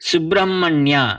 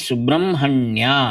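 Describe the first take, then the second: First: The h sound comes before the m. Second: The h sound comes after the m. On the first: The speaker calls it wrong. "వ్రాసినట్లుగానే పలకకూడదు" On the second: The speaker calls it right. "అని వలె పలకాలి"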